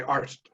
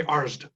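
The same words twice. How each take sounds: First: Arst ending in a crisp st; preferred pronunciation. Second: Arst ending in a voiced d, like "Arzd"; rejected pronunciation. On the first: Retold or imitated. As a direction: finish "Arst" with a sharp t. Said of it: "I'm gonna say Arst". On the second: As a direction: soften the end of "Arst" toward zd. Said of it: "I'm not gonna say Arst".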